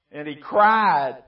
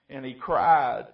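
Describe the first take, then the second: First: And he cried drawn out slow and loud; slow emphatic cried. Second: Cried said louder with a falling finish; cried stressed. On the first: Preacher repeating that the rich man cried, slow and loud. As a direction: stretch each word, landing hard on cried. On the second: Preacher first stating the rich man cried, louder with a falling end. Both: Shown as a demonstration.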